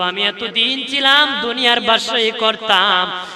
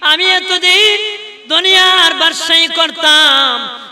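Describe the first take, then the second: First: It is said at normal, softer volume. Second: It is said in a louder voice.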